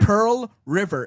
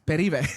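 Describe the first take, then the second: First: It is said as two separate words. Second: It is run together as one word. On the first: "instead of Pearl River" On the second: "It's one word"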